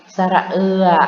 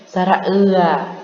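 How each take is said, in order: The two takes are said the same way.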